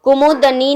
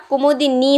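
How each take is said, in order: First: कुमुदनी said as ku-mu-də-ni, with a neutral ə before ni; wrong form demo. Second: कुमुदिनी said as ku-mu-di-ni, with a clear short i in di; correct form demo. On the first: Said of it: "कुमुदनी नहीं होता". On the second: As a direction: say कुमुदिनी the right way, mu-di-ni. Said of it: "कुमुदिनी होता है". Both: Shown as a demonstration.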